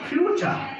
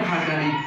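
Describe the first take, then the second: First: It starts with 'fyoo' and has a ch sound. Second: It starts with 'fa' and has a plain t sound. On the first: The speaker calls it right. "যখন IPA জানবো তখন বলবো ফিউচার" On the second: The speaker calls it wrong. "ফুটুরি না ফাটারি"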